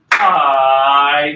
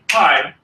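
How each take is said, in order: First: The word is held out long. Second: The word is cut off short. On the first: The speaker calls it right. "but we say pie" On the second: The speaker calls it wrong. "we don't say pie"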